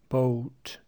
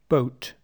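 First: The vowel is drawn out long. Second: The vowel is short and clipped. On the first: The speaker calls it wrong. "Be careful you're not saying" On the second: The speaker calls it right. "Keep the vowels short because the consonant following them is unvoiced"

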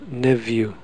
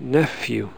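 First: The middle consonant is a v sound. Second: The middle consonant is an f sound. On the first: This is the less common, older pronunciation. "this is my pronunciation and I've put a V" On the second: This is the more common modern pronunciation. "it's more common now to say nephew"

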